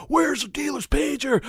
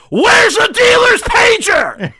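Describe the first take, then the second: First: High strained scream, held back in volume; mock scream. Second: Drawn-out, very high full-throated scream; Sam's scream. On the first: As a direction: quote the scream high but smaller. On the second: Retold or imitated. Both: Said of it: "it's not so much the screaming part".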